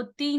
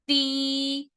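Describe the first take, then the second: First: "ती" as a brief one-count syllable; short tee. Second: "ती" sustained for two counts, pitched higher; long tee. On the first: Teacher showing learners the wrong reading, short tee. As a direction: clip the ee of "ती" to a single beat. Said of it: "इसको ती नहीं पढ़ेंगे". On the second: Teacher modelling how long to stretch it, held tee. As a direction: draw out "ती" on a level note. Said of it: "दो हरकत जितना लंबा करना है". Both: Shown as a demonstration.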